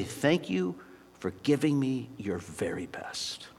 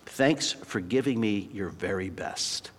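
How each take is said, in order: First: Drops to a soft whisper on the thanks; hushed whisper. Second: Slow, softer, heartfelt coach's thanks; tender thanks. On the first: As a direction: whisper it like a treasured secret. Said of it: "gonna say something more like this". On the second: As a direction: gently thank him for his effort. Coach thanks cut player tenderly. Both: Retold or imitated.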